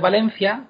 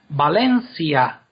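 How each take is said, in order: First: The ending 'cia' is said as one syllable. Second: The ending 'ci-a' is said as two syllables.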